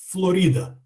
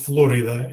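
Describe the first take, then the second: First: The stress is shifted away from the English position. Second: The stress falls where English speakers put it. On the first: "we do the same thing with Florida" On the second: "as this in English"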